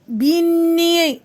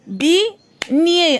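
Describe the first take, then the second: First: "Beignet" stretched evenly, both syllables held; drawn-out syllables. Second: "Beignet" split, Bei, pause, gnet; syllable by syllable. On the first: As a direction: say "Beignet" long and joined, so the gn sound shows. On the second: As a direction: leave a clear gap before the gnet of "Beignet". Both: Shown as a demonstration. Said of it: "فين كنسمع le son".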